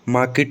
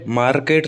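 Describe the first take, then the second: First: The stress is on the first syllable. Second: The stress is on the second syllable. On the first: The speaker calls it right. "तो माँ पर stress आ रहा है" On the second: The speaker calls it wrong. "Market नहीं होता"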